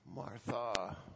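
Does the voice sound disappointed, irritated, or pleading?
disappointed. The name is said in a disappointed tone. The speaker is let down by her. "Was it disappointed?"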